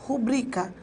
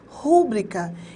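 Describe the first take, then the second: First: The stress falls on the second syllable. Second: The stress falls on the first syllable. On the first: The speaker calls it right. "Sílaba tônica é o bri" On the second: The speaker calls it wrong. "rúbrica não existe"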